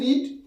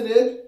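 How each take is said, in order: First: The vowel is long, like 'reed'. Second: The vowel is short, like 'red'. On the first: It refers to the present tense. "প্রেজেন্ট টেন্সে রিড" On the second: It refers to the past tense. "পাস্ট টেন্সে রেড"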